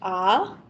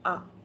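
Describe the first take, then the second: First: The voice is open, full and clear. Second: The voice is low, weak and muffled. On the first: The body sits straight and open. The speaker calls it right. "It is more clearer" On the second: The body is slouched and closed. The speaker calls it wrong. "You can only say it in a very low toned voice"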